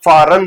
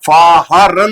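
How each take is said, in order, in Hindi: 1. शब्द के बीच में एच की कोई आवाज़ सुनाई नहीं देती। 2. शब्द के बीच में एच की आवाज़ सुनाई देती है। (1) "फारन रीड होगा" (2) "फारन नहीं पढ़ेंगे"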